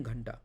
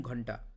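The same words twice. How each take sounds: First: ঘন্টা with an open Hindi "a" vowel, ghan-ta; correct Hindi ghanta. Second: ঘন্টা with a rounded Bengali "o" vowel, ghonta; wrong Bengali-style ghonta. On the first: Teacher demonstrating the correct Hindi ঘন্টা, ghanta. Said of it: "I am telling ঘন্টা". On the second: Teacher demonstrating the wrong Bengali ঘন্টা, ghonta. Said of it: "I am not telling ঘন্টা". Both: Shown as a demonstration.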